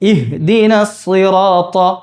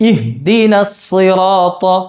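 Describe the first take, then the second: Both takes have the same delivery.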